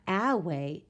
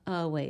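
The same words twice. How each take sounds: First: The first vowel is a long A sound. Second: The first vowel is a short schwa sound. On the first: The speaker calls it wrong. "So it's not a way" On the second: The speaker calls it right. "this is the schwa sound"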